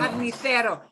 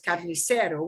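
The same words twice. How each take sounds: First: The c is said as a th sound. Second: The c is said as an s sound. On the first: This is how it is said in Spain. "they do a T H with C E C" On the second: This is how the presenter says it. "with an S, carnicero, which is how I would say it"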